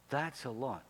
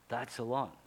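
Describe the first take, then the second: No difference in how they are said.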